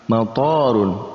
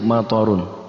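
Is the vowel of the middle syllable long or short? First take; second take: long; short. First: The middle vowel is long. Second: The middle vowel is short. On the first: It means airport. "ketika kita memanjangkan tok pada kata matorun situ" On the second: It means rain. "tanpa ada baca panjang di situ"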